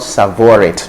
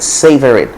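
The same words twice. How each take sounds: First: It uses the Nigerian English pronunciation instead. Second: It sounds like 'saver', the standard pronunciation. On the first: The speaker calls it wrong. "not savor it" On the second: The speaker calls it right. "it has the same pronunciation as the word savor"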